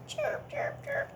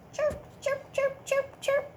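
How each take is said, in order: First: Very high whispered chirps. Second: Very high chirping; cricket chirp. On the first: Teacher whispering cricket sound to children. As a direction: breathe out tiny cricket chirps. It makes that. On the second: Teacher imitating a cricket for children. And what's that sound?. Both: Shown as a demonstration.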